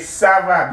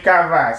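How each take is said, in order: First: It begins with an S sound. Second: It begins with a K sound. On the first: The speaker calls it right. "say ça va" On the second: The speaker calls it wrong. "Don't say cava"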